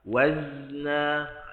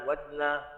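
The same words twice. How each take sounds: First: The z is drawn out before the n. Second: The z moves straight into the n. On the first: The speaker calls it right. "bagi dia lepas dulu wazna, dah ada leretan" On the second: The speaker calls it wrong. "kita jangan pindah terus wazna wazna, dia tak nampak dia punya rakhawah"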